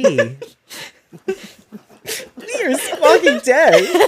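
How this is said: It is said in a very cheerful manner.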